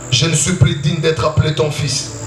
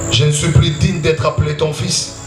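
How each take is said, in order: The two takes are said the same way.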